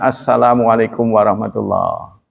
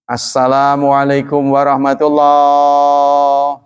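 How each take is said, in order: First: The vowels are kept short and ordinary. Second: The vowels are stretched out long. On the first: The speaker calls it right. "sunnahnya adalah ... Biasa saja" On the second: The speaker calls it wrong. "Kan kita suka dengar tuh dipanjangin"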